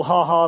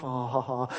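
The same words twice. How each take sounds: First: Loud, mock-jolly ha ha; big spoken ha ha; joyful laugh. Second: Weak, polite ha ha ha; subdued spoken ha ha ha; pity laugh. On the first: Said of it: "the joyful ha ha laugh". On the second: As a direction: demonstrate a half-hearted pity laugh. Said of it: "There's the, the pity laugh". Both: Shown as a demonstration.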